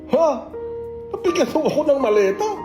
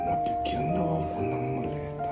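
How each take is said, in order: First: It sounds like a natural, surprised reaction. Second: It sounds disappointed.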